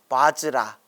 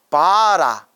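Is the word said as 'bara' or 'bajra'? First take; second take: bajra; bara. First: It is said with a j sound before ra. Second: It is said with two syllables, without a j sound. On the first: This is the original Sanskrit pronunciation. The speaker calls it right. "원래 발음은 바즈라라고 합니다" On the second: This is the Korean reading passed through Chinese characters. The speaker calls it wrong. "바라라고 됐는데 뭘 바라라는 뜻이 아니라"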